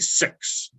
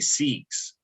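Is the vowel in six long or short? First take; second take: short; long. First: The word is said in a New Zealand accent. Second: The word is said in an Australian accent.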